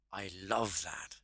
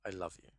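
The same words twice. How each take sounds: First: Slow, savoured delight with "love" drawn out; more enthusiastic. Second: Loveless, wrong-sounding. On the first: Coach picturing something liked, saying it with heartfelt enthusiasm. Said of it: "hear a lot more enthusiasm". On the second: Coach thinking of someone disliked, saying it without love. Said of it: "It comes across wrong". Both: Shown as a demonstration.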